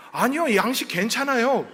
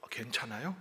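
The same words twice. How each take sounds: First: 아니요 punched, then 괜찮아요 with a settled falling tune; insisting it's fine. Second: 괜찮아요 said softly with a rising, puzzled question tune; 괜찮아요 rising at the end, soft and doubtful. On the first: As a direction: reassure him that 괜찮아요 means yes. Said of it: "그랬어요". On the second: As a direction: quietly check whether 괜찮아요 means no. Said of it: "그랬더니". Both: Retold or imitated.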